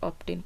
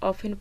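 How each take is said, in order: First: The word is said with a t sound. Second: The word is said without a t sound. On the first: "या फिर ऑप्टेन पढ़े, दोनों सही है" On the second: "इसे ऑफन पढ़े"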